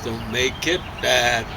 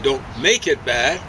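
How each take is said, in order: First: The last word carries the strongest stress. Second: The last word carries no extra stress. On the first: The speaker calls it right. "the end of the phrase is more accented" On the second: The speaker calls it wrong. "we don't say"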